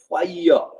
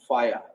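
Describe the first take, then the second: First: The vowel is a three-part glide ending in extra vowel. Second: The vowel is a two-part glide without extra vowel. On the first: The speaker calls it right. "the correct pronunciation of this word is pronounced with uh, uh, triphthong" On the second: The speaker calls it wrong. "We almost uh, pronounce this word fire"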